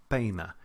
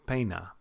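No difference in how they are said.

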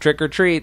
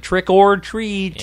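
First: The middle word is reduced to a short 'r'. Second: The middle word is a full, clear 'or'. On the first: The speaker calls it right. "that's how most people say it" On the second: The speaker calls it wrong. "They don't say trick or treat"

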